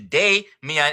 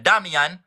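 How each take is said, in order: First: The first vowel sounds like the name of A. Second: The first vowel is a short, flat a sound. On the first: "That A is taking on its original sound of A, which is Day, Mian" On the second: "instead of Damian"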